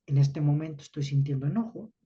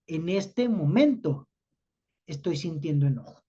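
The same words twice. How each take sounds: First: Said in the usual way. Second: Teacher modelling the phrase word by word; deliberate model phrase. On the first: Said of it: "Pero si yo digo". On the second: Shown as a demonstration. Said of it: "fíjense lo que estoy haciendo".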